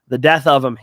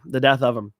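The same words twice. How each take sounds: First: "the death of him" with a hard, loud hit on "death"; emphatic death. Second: Said in the usual way. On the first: Shown as a demonstration. Fight pick, stressing "death" loud and falling. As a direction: lean into "death" like a final verdict.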